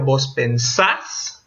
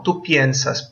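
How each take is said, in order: First: "pensás" slowly as pen-SAS; plain e, long stressed last syllable in "pensás"; stress on final syllable. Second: "piensas" as PYEN-sas with ie; weight on the first syllable of "piensas"; stress on the root. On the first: Teacher shows students the vos form, "pensás" stressed on SAS. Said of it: "porque la tónica está al final". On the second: Teacher contrasts tú with vos, "piensas" stressed on PYEN. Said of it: "Tú diptonga". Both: Shown as a demonstration.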